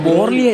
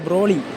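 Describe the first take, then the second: First: The name begins with 'bor', the r after o. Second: The name begins with 'bro', the r before o. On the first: The speaker calls it wrong. "ബോർലി അല്ല" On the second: The speaker calls it right.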